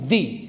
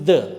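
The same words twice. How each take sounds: First: It is said in its before-vowel form. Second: It is said in its before-consonant form. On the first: "But if you have a vowel sound, then it becomes the" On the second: "If you have a consonant sound after this the, it is the"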